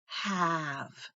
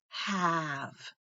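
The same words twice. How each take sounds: First: The vowel is a short A sound. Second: The vowel is a short A sound.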